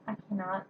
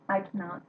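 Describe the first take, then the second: No difference in how they are said.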